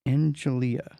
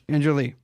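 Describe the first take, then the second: First: The name ends in an 'ah' sound. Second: The name ends in an 'ee' sound. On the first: The speaker calls it wrong. "I ended with the A" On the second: The speaker calls it right.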